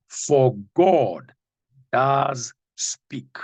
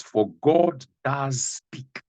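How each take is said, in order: First: God hit loud and falling; stress on God. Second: Each word drawn out slowly; slow emphatic reading. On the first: Preacher rereading the verse, hitting "God". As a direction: lean hard on "God". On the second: Preacher to congregation, slow and weighty. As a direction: weigh every word of the verse. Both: Shown as a demonstration. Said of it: "Listen to this again".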